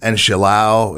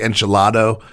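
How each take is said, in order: First: The d before the final vowel is dropped. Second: The d before the final vowel is pronounced. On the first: This is how one community would say it. "enchilao is the way that the Cubans would have said it" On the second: This is the dish's actual full name. "It's actually enchilado"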